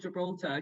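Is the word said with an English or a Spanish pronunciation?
English. It is said with an English pronunciation. The speaker calls it wrong. "not Gibraltar because they don't say it like that"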